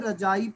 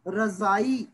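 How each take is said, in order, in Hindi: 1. बीच का व्यंजन 'j' की ध्वनि है। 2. बीच का व्यंजन 'z' की ध्वनि है। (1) "ਆਮ ਕਰਕੇ ਰਜਾਈ ਪੜ੍ਹ ਲਿਆ ਜਾਂਦਾ ਹੈ" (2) "ਜਦੋਂ ਬਿੰਦੀ ਲੱਗ ਜਾਏਗੀ"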